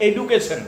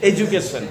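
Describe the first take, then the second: First: EDUCATION with a hard d, "e-du-ke-shon"; spelling pronunciation. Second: এডুকেশন said "e-joo-ke-shon"; corrected pronunciation. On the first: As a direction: say এডুকেশন with a plain D sound. (এডুকেশন, 'ডু' স্পষ্ট ড দিয়ে) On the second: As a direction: soften the d of এডুকেশন into a J sound. (এডুকেশন, 'ডু'-কে 'জু' করে) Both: Shown as a demonstration. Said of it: "ভুল কথা".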